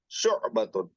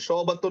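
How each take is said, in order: First: A throaty 'ain catch follows 'shu'. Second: A plain 'sho' with no throaty catch. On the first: The speaker calls it right. "वो आयन है" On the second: The speaker calls it wrong. "शोबतुन नहीं है"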